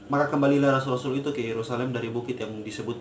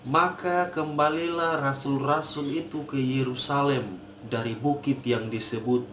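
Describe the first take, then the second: First: It is read hurriedly, without attention to pace. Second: It is read at a clear, measured pace. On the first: The speaker calls it wrong. "Contoh orang yang membaca tidak memperhatikan tempo" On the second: The speaker calls it right. "Artikulasi jelas"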